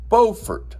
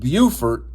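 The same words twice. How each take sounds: First: It uses the North Carolina pronunciation of the name. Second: It uses the South Carolina pronunciation of the name. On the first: It names the town in North Carolina. The speaker calls it right. "The North Carolinian coastal town is pronounced Beaufort" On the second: It names the town in South Carolina. The speaker calls it wrong. "Not to be confused with Beaufort, South Carolina"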